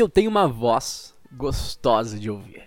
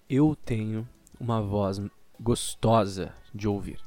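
First: It is said in a plain, ordinary voice. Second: It is said in a smooth, seductive voice.

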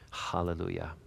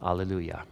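First: The word begins with an H sound. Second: The word begins without an H sound. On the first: "it's more proper to pronounce it with an H" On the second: "you can pronounce it with or without an H"

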